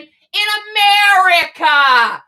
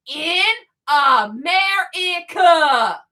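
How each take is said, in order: First: AMERICA hit hard and stretched; emphatic. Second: "In America" spelled out very slowly; real slow. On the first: Ranter demanding money for homeless children, emphatic stress on "America". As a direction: punch out "America" with indignant force. First take, before slowing it down. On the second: Ranter repeating it for the charities, real slow and deliberate. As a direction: separate and stretch each piece of "In America". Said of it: "Let me say it real slow". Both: Real, not acted.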